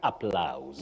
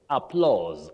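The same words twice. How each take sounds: First: The vowel sounds like 'ow' in loud. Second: The vowel sounds like 'aw' in law. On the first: The speaker calls it wrong. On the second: The speaker calls it right. "the sound in this case for A U is O"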